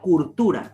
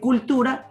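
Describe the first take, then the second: First: It is said with an R sound after cu. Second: It is said with an L sound after cu. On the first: "la rotación de la R en lugar de L" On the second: "En vez de decir cultura"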